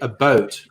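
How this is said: The vowel sounds like the one in boat. This is how Canadians really say it. The speaker calls it right. "it's very obvious they say a boat"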